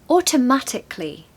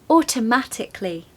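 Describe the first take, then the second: No difference in how they are said.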